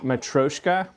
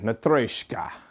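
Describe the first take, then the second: First: It is said with a plain American r. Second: It is said with a rolled r. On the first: "if you're trying to pronounce it with an American accent" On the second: "put a Cyrillic roll into your tongue"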